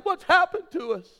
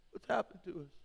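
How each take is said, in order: First: "What's happened to us?" high and loud, pleading; anguished cry. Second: Said in the usual way. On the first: Retold or imitated. Wife's cry, then repeated softly.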